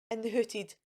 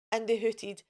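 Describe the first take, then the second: No difference in how they are said.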